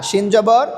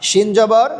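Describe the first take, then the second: Both takes have the same delivery.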